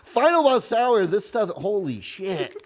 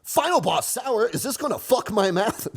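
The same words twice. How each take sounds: First: Hammed-up product pitch, slow; corny ad voice. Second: Hammed-up product pitch; corny ad voice. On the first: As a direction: oversell it like a cheesy ad. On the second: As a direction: sell it like a cheesy commercial. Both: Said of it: "do a Chamber Media ad".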